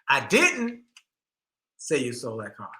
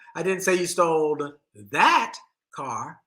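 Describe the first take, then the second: First: The word "didn't" carries the stress. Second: The word "that" carries the stress.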